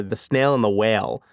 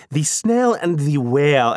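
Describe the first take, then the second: First: Said in the usual way. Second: "The snail and the whale" slow, each word fully enunciated; over-careful diction. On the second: Shown as a demonstration. Dad reading to his daughter, "The snail and the whale" in over-careful diction. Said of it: "much more aware of my diction".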